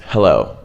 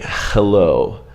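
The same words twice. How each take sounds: First: "hello" with a light, breathed H and no friction; just blow air out for the H of "hello"; relaxed English H. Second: "Hello" with a harsh, scraping Russian kh for the H; "Hello" opened on a hard throaty fricative; typical Russian H. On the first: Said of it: "It's very relaxed". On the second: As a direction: rasp the H of "Hello" at the back of the throat. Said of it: "So a typical Russian would say". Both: Shown as a demonstration.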